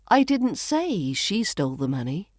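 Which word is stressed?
say. The word say carries the main stress. It was implied rather than said. "Maybe I implied it rather than saying it"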